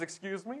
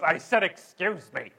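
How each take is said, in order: First: Soft rising question; polite excuse me. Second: Loud, emphatic imitation of indignation; mock snippy retort. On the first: Acted. Traveller modelling the courtesy he expected, soft and polite. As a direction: say it gently, lifting at the end. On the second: Imitating flight attendant answering back, loud snippy tone. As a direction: insist you already said it, with attitude. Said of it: "in that exact tone".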